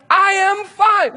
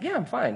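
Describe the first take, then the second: First: Loud, high, drawn-out protest; angry insistence. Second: Softer, brushing off the concern; a quick, easy brush-off, pitched up; casual reassurance. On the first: Driver fed up with friends asking if he's fine, angry shout. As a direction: shout each word slowly, hugely exasperated. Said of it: "I am so angry about it". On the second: Driver answering worried friends in the car, casual reassurance. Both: Retold or imitated.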